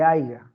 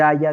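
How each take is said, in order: First: Haiga with an inserted g, a plain village slip; rustic haiga. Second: Haya said properly, clean y sound; correct haya. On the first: Teacher imitates the rural error for the class, haiga with a g. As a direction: say haiga the way the mistake sounds. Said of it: "dice haiga". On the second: Teacher shows students the correct form, haya said cleanly. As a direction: give the standard haya. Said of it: "en vez de decir haya". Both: Shown as a demonstration.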